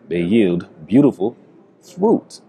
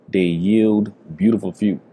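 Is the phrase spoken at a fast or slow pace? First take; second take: slow; fast. First: It is spoken slowly and deliberately. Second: It is spoken at a normal, quicker pace.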